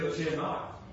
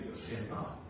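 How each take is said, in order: First: Said in the usual way. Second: Whispered. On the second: Shown as a demonstration. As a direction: whisper "but sin not" with no voice, soft. Repeats command, drops to whisper.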